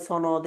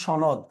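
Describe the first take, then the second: First: "সনদ" said with an English-like s, sonod; the everyday sonod version of "সনদ"; common mispronunciation. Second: "সনদ" said with a sh sound, shonod; correct pronunciation. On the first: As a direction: start "সনদ" on a hissed s, not sh. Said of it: "আমরা অনেকে সনদ বলে থাকি". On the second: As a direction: start "সনদ" on sh, not s. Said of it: "এটা কিন্তু উচ্চারণ সনদ". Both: Shown as a demonstration.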